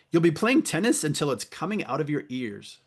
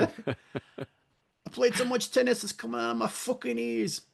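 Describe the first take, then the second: First: Said in the usual way. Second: Much higher Boston accent, hammed up; mock Boston accent. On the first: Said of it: "I wrote down this line". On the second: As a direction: mangle a Boston accent on purpose. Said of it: "I can't really do a Boston accent".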